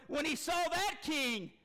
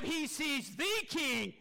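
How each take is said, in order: First: "that" picked out before "king"; stress on THAT. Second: "the" drawn out slowly before "king"; stress on THE. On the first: Preacher contrasts an earthly king with God, stress on THAT. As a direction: lean on "that" to single out one king. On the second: Preacher points the church to God, slow stress on THE. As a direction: stretch "the" to mean the one and only. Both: Shown as a demonstration. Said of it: "You see the difference there?".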